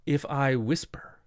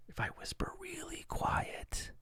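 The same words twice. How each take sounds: First: Said in the usual way. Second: Breathy whisper, high and very soft. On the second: Shown as a demonstration. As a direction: drop to a real whisper to show it.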